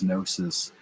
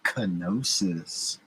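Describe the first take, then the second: First: It begins directly with an N sound. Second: It begins with a hard K sound before N. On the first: The speaker calls it right. "the G is silent" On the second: The speaker calls it wrong. "Why would you call it kenosis?"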